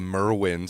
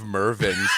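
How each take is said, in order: First: The middle consonant is a W sound. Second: The middle consonant is a V sound. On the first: This is how a relative mispronounced the store name. The speaker calls it wrong. "My aunt used to say Merwin's" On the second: This is the store's actual name. The speaker calls it right. "instead of Mervin's"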